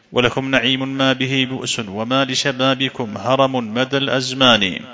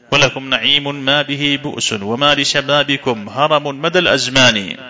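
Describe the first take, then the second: No difference in how they are said.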